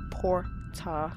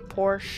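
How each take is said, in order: First: The middle consonant is a plain t sound. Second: The middle consonant is a ch sound. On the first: The speaker calls it right. "It's My Time at Porta" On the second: The speaker calls it wrong. "not Porsche. I don't know why I thought the T was a CH"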